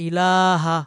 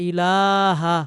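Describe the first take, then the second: Both takes have the same delivery.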